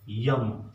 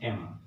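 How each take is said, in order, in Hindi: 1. यह 'य' की ध्वनि से शुरू होता है, yam। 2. यह सादे स्वर से शुरू होता है, em। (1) "कुछ लोग इसको यम पढ़ लेते हैं" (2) "इसको एम पढ़ते हैं"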